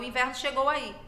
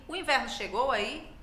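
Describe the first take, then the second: First: The voice falls at the end. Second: The voice rises at the end. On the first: It states a fact. "se fosse uma afirmação. Eu diria" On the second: It asks a question. "como está aqui"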